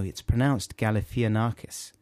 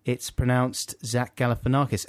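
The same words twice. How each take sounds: First: Galifianakis said as spelt, gal-ih-FEE-uh-NAR-kiss; confident mispronunciation. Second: Galifianakis said gal-uh-fuh-NAR-kiss; corrected pronunciation. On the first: Host retelling his mistake, confident mispronunciation of Galifianakis as gal-ih-FEE-a-narkis. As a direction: sound out every vowel in Galifianakis, with an extra FEE. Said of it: "I extremely confidently said".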